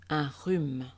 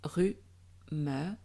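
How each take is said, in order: First: Said in the usual way. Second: Rhume split in two, drawn out; rhu-me with the final e voiced; syllable by syllable. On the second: Shown as a demonstration. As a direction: sound out rhume in parts. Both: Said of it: "Je syllabe".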